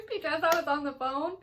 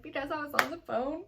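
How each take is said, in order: First: Higher and louder, sheepish whine; exaggerated guilty confession; hammed-up sheepish answer. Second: A lightly higher, sheepish reply; half-embarrassed confession; mock sheepish answer. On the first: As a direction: repeat it like a guilty child, louder. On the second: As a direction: say it like a caught kid. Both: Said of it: "And I said".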